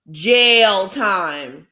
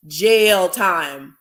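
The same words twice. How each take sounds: The two takes are said the same way.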